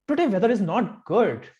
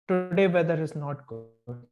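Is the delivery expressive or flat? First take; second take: expressive; flat. First: It is read expressively, with lively feeling. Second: It is read flatly, with little expression. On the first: "professional voiceovers speak like this" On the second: "when normal people read a sentence, they read it like this"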